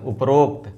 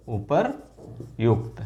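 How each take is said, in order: First: उपरोक्त said as upa-rokt, the common mistake; wrong form. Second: उपर्युक्त drawn out slowly as u-par-yukt; correct form, slow. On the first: Teacher shows students the common wrong word upa-rokt. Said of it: "उपरोक्त का सही क्या होगा?". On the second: Teacher gives students the correct word u-par-yukt, slowly. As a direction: spell out उपर्युक्त slowly, every syllable clear. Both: Shown as a demonstration.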